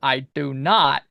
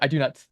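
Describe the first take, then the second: First: The word 'not' is stressed. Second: The word 'not' is unstressed.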